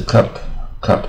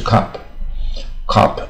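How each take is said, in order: First: CUP with a short uh, as for a drinking cup; slow, careful "cup" with an uh vowel. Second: CUP said as "cop", with an open ah; slow "cup" with a long ah, as in police cop; open vowel. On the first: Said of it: "杯子是cup". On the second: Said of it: "卷舌音". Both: Shown as a demonstration.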